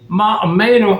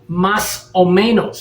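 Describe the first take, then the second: First: The s sounds are dropped from the phrase. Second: The s sounds are clearly pronounced in the phrase. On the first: This is how a local speaker said it. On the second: This is the standard way to say it.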